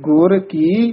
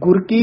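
First: The two words are said as separate words. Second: The two words are run together as one. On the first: The speaker calls it right. "जेडे पाद हैं इन्हां नु वखरा पढ़ना है" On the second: The speaker calls it wrong. "जे एक गुरकी नहीं कह देना"

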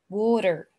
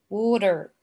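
Both takes have the same delivery.

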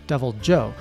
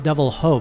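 First: The second word begins with a J sound. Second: The second word begins with an H sound. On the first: The speaker calls it right. "but Devil Joe" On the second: The speaker calls it wrong. "Not Devil Ho, by the way. Not pronounced like the Spanish"

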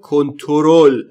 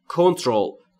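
First: An 'o' vowel is heard right after the t. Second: No 'o' vowel is heard right after the t. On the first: The speaker calls it wrong. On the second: The speaker calls it right.

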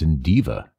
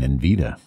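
First: The name is said with a 'd' then 'v'. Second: The name is said with a 'v' then 't'. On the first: The speaker calls it right. "but it's Indiva" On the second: The speaker calls it wrong. "I might have been pronouncing it wrong all the time. I might have been saying Invita"

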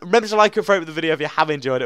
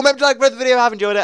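First: It is said slowly. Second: It is said fast.

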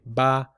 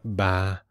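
First: The vowel is said in a plain, normal voice. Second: The vowel is said with a breathy voice. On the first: It means the number three. "if I just say ba, I'm talking about the number 3" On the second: It means lady. "If I make it breathy, like ba"

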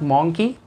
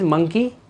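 First: The first vowel sounds like 'aw'. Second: The first vowel sounds like 'uh'. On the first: The speaker calls it wrong. "This is not मॉन्की" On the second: The speaker calls it right. "This is मंकी"

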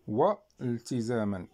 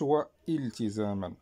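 First: The words join with no glottal stop between them. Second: A glottal stop is heard before the second word. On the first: The speaker calls it right. "إذا ما نطقناش بالهمزة" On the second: The speaker calls it wrong. "ما قلناش هو التزاما"

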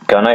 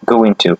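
First: The words are blended into a short reduced form. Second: Both words are said fully and separately. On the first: "Gonna, it's equivalence to going to" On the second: "yani going to"

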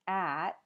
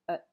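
First: The word has its full vowel. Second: The word has a reduced schwa vowel. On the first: "the full form" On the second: "you might just hear ut"

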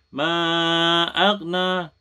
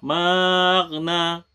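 First: The two words are kept clearly apart. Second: The two words are run together quickly. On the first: The speaker calls it right. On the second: The speaker calls it wrong.

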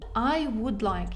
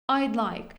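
First: The word 'would' is pronounced in full. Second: The word 'would' is reduced to a 'd' sound.

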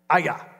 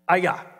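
First: The name is said as two syllables, ah-yah. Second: The name is said as two syllables, ah-yah.

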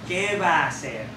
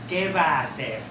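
No difference in how they are said.

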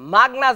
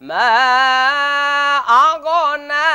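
First: The two words run together without a break. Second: The gh sound is bounced with an echo. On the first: "মাগনা যেন না হয়" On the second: "গয়েনকে কল কলা করা হয়... বড় ভুল"

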